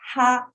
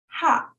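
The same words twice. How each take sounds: First: The pitch starts high and stays level. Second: The pitch falls sharply from high to low. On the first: "the flat sound. Start high, stays there" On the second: "number four is the falling tone"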